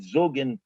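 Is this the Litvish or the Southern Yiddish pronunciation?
Southern. It is said with the southern dialect vowel. "not Zugin"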